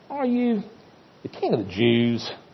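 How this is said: The question is asked in a cynical, sneering tone. The asker mocks the claim and doubts it.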